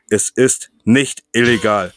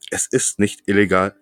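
First: It is said slowly and deliberately. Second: It is said at normal speed.

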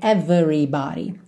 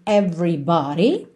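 First: The vowel after the v is pronounced. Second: The vowel after the v is dropped. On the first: The speaker calls it wrong. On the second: The speaker calls it right.

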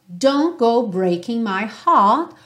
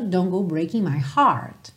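First: It is said in a British accent. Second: It is said in an American accent.

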